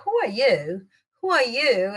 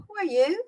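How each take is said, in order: First: Haughty, challenging "who are you?"; looking down on someone. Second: High, lilting, rising "who are you?"; friendlier. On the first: Teacher warning about intonation, condescending. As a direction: size them up as a nobody. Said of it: "aquele jeito, looking down at the person". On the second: Teacher showing the nicer intonation, friendly. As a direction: ask lightly, inviting an introduction. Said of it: "aí, mais simpático". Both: Shown as a demonstration.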